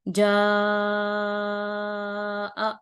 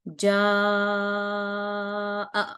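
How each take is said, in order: First: The vowel is stretched for about five counts. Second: The vowel is stretched for about four counts. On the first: "पांच हरकत करना है तो" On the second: "ये मैंने चार हरकत लंबा किया है"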